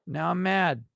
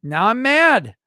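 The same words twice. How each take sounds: First: Said in the usual way. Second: High, loud pretend outburst; mock anger. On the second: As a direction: burst out in hammed-up fury.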